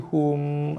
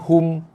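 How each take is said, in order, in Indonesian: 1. Huruf m terakhir ditahan dengan dengung sengau. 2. Huruf m terakhir dipotong singkat tanpa dengung sengau. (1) "mim tu lembut... dia bunyi mm... dengung" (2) "Bukannya hum"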